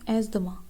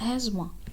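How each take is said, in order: First: The th sound is pronounced in the word. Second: The th sound is left out of the word. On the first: The speaker calls it wrong. "इसको हम पढ़ते हैं" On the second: The speaker calls it right. "The टी एच की आवाज़ silent होती है"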